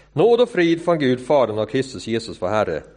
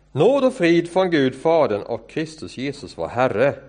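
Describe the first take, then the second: The two takes are said the same way.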